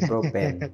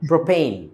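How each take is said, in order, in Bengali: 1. শেষ অংশটি 'pen'-এর মতো শোনায়। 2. শেষ অংশটি 'pane'-এর মতো শোনায়। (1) "আমরা বলি" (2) "পেন না প্রোপেইন"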